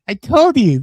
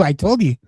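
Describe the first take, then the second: First: "I told you" said higher and louder, pressing the point; emphatic repeat. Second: Said in the usual way. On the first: Real, not acted. To his co-host, repeating himself, louder and insistent. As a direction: hit "told" hard the second time, insisting.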